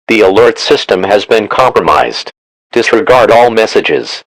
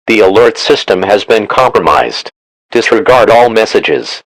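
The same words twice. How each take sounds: The two takes are said the same way.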